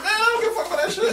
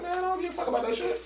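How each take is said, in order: First: High, fast, laughing through it; joking with a laugh. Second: High, fast teasing brush-off; joking. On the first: Joking to the supervisor, laughing high and fast. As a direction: laugh it off so he knows it's a joke. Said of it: "I'm joking". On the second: Joking brush-off to the supervisor, high and quick. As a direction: toss it off like a joke, grinning. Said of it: "in my joking way". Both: Retold or imitated.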